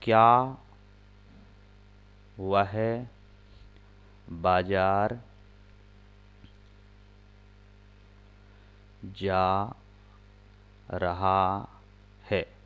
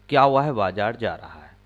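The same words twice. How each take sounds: First: Slow, word by word with long pauses; slow dictation pace; dictating word by word. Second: Said in the usual way. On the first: Shown as a demonstration. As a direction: dictate each word so students can write. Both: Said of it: "एक sentence बनाना है".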